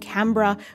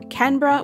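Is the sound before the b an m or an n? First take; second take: m; n. First: The sound before the b is an m. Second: The sound before the b is an n. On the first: "with an M" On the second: "with like an N sound"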